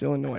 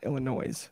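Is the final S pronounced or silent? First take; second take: silent; pronounced. First: The final S is silent. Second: The final S is pronounced. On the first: The speaker calls it right. "That's a silent S on the end of that" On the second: The speaker calls it wrong. "It's not Illinois. Don't ever say that"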